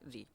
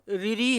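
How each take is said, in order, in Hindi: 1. यह वर्ण एक अक्षर में बोला जाता है, ri। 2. यह वर्ण दो अक्षरों में बोला जाता है, riri। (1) "इसका उच्चारण क्या करते हैं हम? री।" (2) "इसको रिरी नहीं बोला जाता है"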